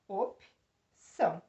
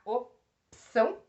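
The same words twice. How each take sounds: First: "Opção" slowly, as op, pause, ção; "Opção" in two separated beats, broken after P; correct syllable split. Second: "opção" broken after the O; "opção" as o, pause, pção; wrong syllable split. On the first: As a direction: keep the P with the O in "Opção". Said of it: "vai ficar com a sílaba anterior". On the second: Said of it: "eu poderia separar opção? Não". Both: Shown as a demonstration.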